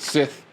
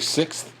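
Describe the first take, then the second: First: It is said in an English way, like 'Sith'. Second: It is said with the full American 'sixth' sound. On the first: "they say s- Sith or s- something like a Sith" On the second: "Like we say sixth"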